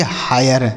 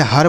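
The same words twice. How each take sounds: First: हायर with an "aay" glide; correct reading. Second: हर as one syllable, "hur"; wrong reading. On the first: Teacher shows the rule to students, हायर with aay glide. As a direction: say हायर as "haa-yar", two syllables. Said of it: "इसे पढ़ेंगे हायर". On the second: Teacher tests the rule on students, हर in one syllable. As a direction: say हर with short uh and no glide. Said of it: "ऐसे नहीं पढ़ेंगे". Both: Shown as a demonstration.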